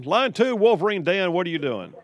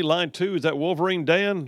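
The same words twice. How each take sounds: First: Higher-pitched, punchy radio host welcome; on-air caller greeting. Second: Quick offhand check of the caller's name; "Wolverine Dan" asked as an unsure question; checking who's there. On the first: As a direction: bring the caller on with big energy. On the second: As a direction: confirm who's on the line. Host checks who is calling. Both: Real, not acted.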